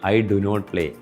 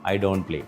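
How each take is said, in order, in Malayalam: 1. Do, not എന്നിവ രണ്ട് പൂർണ്ണ വാക്കുകളായാണ് പറയുന്നത്. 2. Do, not എന്നിവ ഒരു അക്ഷരമായി ചുരുങ്ങിയാണ് പറയുന്നത്. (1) "ഡു നോട്ട് എന്നാണ് പറയേണ്ടത്" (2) "അത് ഇംഗ്ലീഷ് അറിയുന്നവൻ പറയുമ്പോൾ എങ്ങനെയാവും?"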